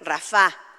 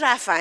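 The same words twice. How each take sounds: First: The stress is on the last syllable. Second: The stress is on the first syllable. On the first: It is the divine name meaning healer. The speaker calls it right. "con acento en la" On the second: It sounds like calling a person named Rafa. The speaker calls it wrong. "no es Rafa"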